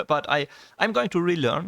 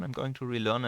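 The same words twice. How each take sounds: First: Louder and higher, laughing through the promise; laughing determination. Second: Said in the usual way. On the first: Real, not acted. Vlogger promising viewers he'll relearn English, laughing loudly. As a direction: laugh it off, then insist brightly.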